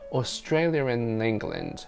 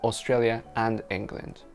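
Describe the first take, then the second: First: An R sound links 'Australia' to 'and'. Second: No R sound links 'Australia' to 'and'. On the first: The speaker calls it right. "for some reason I inserted one to, you know, to smooth the link out" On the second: The speaker calls it wrong.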